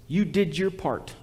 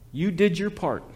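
Both takes have the same delivery.

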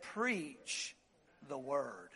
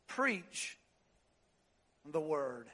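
First: Much softer, the word very low; almost breathe it; hushed emphasis. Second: Softer still, low and solemn; repeated hush. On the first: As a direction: Preach the word sinking to a hush. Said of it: "puts the emphasis on the first three words". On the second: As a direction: let it settle quietly. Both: Shown as a demonstration.

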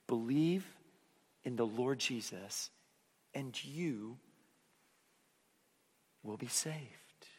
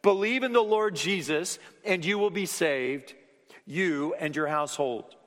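First: Soft, slow and hushed, fading at the end; gently to children. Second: Proclaiming to adults. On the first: Preacher to the kids in the room, soft and gentle. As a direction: tell it softly to a child. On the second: Preacher giving the jailer's answer to the congregation, loud and ringing. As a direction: announce it to the whole room. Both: Shown as a demonstration.

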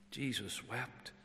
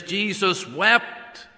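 First: Hushed repeat. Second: "Jesus wept" slow, loud and high, each word weighted; solemn proclamation. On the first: Preacher echoing the verse softly to the mourners. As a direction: let "Jesus wept" fall to a near hush. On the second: Preacher proclaiming the shortest verse, slow and loud. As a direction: draw out "Jesus wept" as a grand declaration. Verse then hushed repeat. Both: Acted.

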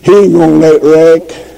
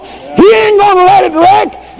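First: Said in the usual way. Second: High, ringing shout of faith; preacher proclaiming God won't let it wreck; preaching at full force. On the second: Shown as a demonstration. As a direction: cry it out to the church. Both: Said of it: "My Father's running this thing".

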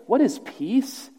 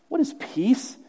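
Both takes have the same delivery.

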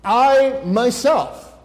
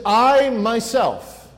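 First: "I myself" drawn out very slowly, "I" hit hard; "I" in "I myself" pressed slow and heavy; emphatic I myself. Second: Slow, stressed "I myself", leaning on "I"; emphatic I myself. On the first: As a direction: stretch "I myself" and hammer the "I". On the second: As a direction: say "I myself" slowly with weight on "I". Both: Shown as a demonstration. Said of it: "It's in the emphatic tense".

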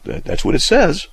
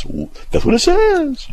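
First: Higher, halting retold discovery; retold realization. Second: Very high, drawn-out mock parroting; friend's mocking imitation. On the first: Recalling studying the Scripture, retold realization. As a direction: re-enact a hesitant dawning realization. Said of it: "I went". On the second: Friend mocks the teacher's catchphrase, mocking imitation. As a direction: mimic someone in a squeaky, stretched-out voice. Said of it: "my friend mocks me and goes".

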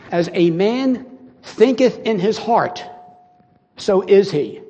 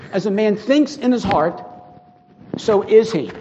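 First: "As a man thinketh in his heart" slowly and weightily, stress on thinketh; slow solemn quote. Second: Said in the usual way. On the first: Shown as a demonstration. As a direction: let each word of the verse land, slowly. Preacher quotes Proverbs verse.

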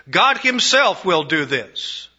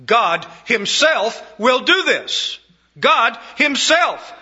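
First: Said in the usual way. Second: "God himself" stressed high, loud and slow; emphatic. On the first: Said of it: "The Greek is even more emphatic". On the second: Acted. Preacher stressing that God acts personally, emphatic. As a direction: lean hard on "himself", drawing it out. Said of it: "It's emphatic".

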